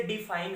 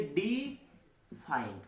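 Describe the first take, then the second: First: Said in the usual way. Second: डिफाइन stretched slowly, a gap between डि and फाइन; split into syllables. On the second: Shown as a demonstration. Teacher showing how to read the word, slow syllable split. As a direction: break डिफाइन in two: डि, pause, फाइन. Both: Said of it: "अपन इसको कैसे यानी पढ़ेंगे".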